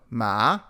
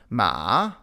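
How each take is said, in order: First: The pitch rises from mid to high. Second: The pitch dips down and then rises. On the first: "the rising tone" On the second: "the falling then rising tone"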